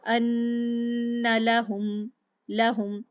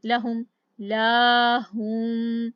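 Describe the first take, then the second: First: लहुम with a short first vowel; लहुम quick la, not laahum; short lahum. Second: लाहुम with la drawn out too long; लाहुम, lengthening the first vowel wrongly; wrong stretched laahum. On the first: Teacher contrasts the right reading, slow recitation. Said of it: "लाहुम मैंने नहीं पढ़ा". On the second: Teacher shows the mistake to avoid, slow stretched recitation. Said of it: "इस तरह मैंने नहीं किया". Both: Shown as a demonstration.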